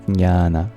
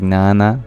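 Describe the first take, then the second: First: The word starts with both J and N. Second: The word starts without the J sound. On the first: The speaker calls it right. "the Sanskrit word for knowledge is" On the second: The speaker calls it wrong. "some people fail to pronounce the J, so they just say"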